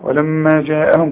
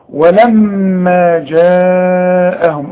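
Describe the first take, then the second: First: The vowel in the second word is kept short. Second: The vowel in the second word is held long. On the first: The speaker calls it wrong. "مش تقول لي ولما جاءهم كده" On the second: The speaker calls it right. "اهو ده المد الواجب"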